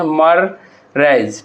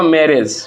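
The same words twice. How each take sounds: First: "मररेज" as two slow, drawn-out parts, मर and रेज; teacher sounding out "मररेज" syllable by syllable, very slowly; broken into syllables. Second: Said in the usual way. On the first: Shown as a demonstration. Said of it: "किस तरह से लिखते हैं". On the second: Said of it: "मैरिज को हम लोग किस तरह से लिखते हैं".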